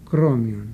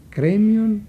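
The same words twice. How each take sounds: First: «κρόμιον» dropped low; contrast answer. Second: «Κρέμιον» higher and louder; contrast stressed. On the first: (χαμηλό «κρόμιον» ως απάντηση) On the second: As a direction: hit «Κρέμιον» up high before the contrast. (τονισμένο, ψηλό «Κρέμιον») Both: Shown as a demonstration. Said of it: "όπως στη λέξη κρέμιον".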